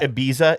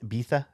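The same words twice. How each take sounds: First: The z is said as a plain z sound. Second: The z is said as a th sound.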